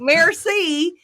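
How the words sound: It is said flatly with an American accent.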